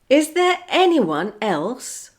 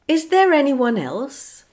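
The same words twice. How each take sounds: First: The words are kept apart with no R link. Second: An R sound joins the words smoothly together. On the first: "I'll say a phrase without linking" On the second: "then I'll say it with the linking"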